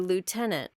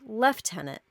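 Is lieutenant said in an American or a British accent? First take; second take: American; British. First: It is said with an American pronunciation. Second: It is said with a British pronunciation. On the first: This is how the speaker's own group says it. "We say lieutenant" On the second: This is how people in Britain say it. "the British pronunciation is actually lieutenant"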